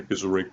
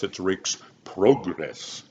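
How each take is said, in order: First: "Rake" said the British way; "Rake's" with a British vowel. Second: "Rake's Progress" slow and careful, British vowels; "Progress" with a British "pro", said slowly; correct British pronunciation. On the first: Coach correcting his British vowel on "Rake". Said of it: "it's not Rake's Progress". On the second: Singer showing the British way to say "Rake's Progress". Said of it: "It's Rake, it's not Rake's Progress". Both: Shown as a demonstration.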